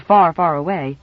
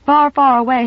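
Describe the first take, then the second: First: Slow, dreamy far, far away. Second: Said in the usual way. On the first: A narrator's reading. Narrator savouring magic words, slow and dreamy. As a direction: linger on "far, far away" like a spell. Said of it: "words of magic to Nan". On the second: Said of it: "had always been words of magic".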